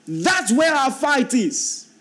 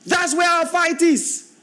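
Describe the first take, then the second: First: High, slow, weighty declaration; preacher driving the point home; emphatic preaching. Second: Much higher, slow, ringing, with weight on where; preacher repeating it with more fire; climactic repeat. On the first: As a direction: lay the point down slowly and firmly. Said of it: "repeated, said higher". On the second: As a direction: hit where and lift the whole line to a peak. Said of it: "repeat, raised". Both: Shown as a demonstration.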